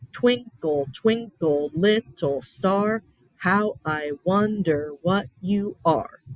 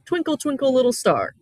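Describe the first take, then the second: First: Slow, each "Twinkle" its own beat with a clear fall; rhythmic recitation. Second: Lifted, sing-song "Twinkle, twinkle", each word falling; sing-song nursery rhyme. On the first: Teacher showing students the regular rhythm, slow and even. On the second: Teacher recalling a nursery rhyme for students, light sing-song. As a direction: call it out like a children's rhyme. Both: Shown as a demonstration. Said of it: "Has a very regular rhythm".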